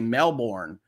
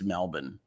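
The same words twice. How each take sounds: First: The name is said with an American pronunciation. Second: The name is said with an attempted Australian pronunciation. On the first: "The American in me wants to say Melbourne" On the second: "So I'm gonna guess it's Melbourne"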